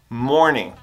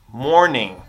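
Both takes have the same delivery.

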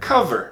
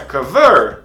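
First: The stress is on the first syllable. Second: The stress is on the second syllable. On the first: The speaker calls it right. "está no c" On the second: The speaker calls it wrong. "a tônica não está no ver"

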